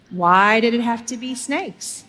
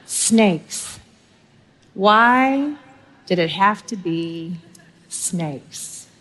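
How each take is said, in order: First: Said in the usual way. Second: Slow, drawn-out Indiana Jones dread, with a near-silent final snakes; Indy's line with long pauses and the last snakes dropped away; lightly voiced Indiana Jones, dreading the snake pit. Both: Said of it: "ask with the great theologian Indiana Jones".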